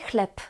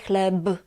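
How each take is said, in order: First: The final consonant is a voiceless p. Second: The final consonant is a voiced b. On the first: The speaker calls it right. "we say chleb" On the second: The speaker calls it wrong. "we don't say chleb"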